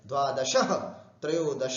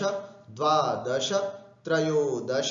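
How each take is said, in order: First: Each word ends with an added breathy h. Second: Each word ends with a short vowel after sh. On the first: The speaker calls it wrong. "विसर्ग लगा देते हैं, वो भी गलत है।" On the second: The speaker calls it right. "इस तरह से दश बोलना है।"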